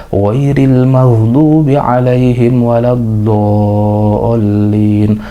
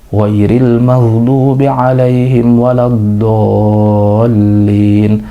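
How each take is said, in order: No difference in how they are said.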